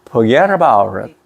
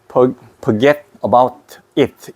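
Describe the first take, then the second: First: The t is a soft r-like flap. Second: The t is a clear, crisp t sound. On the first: The speaker calls it right. "R 발음이 나버려요" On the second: The speaker calls it wrong. "이렇게 하지 말고 이러면 안 되고"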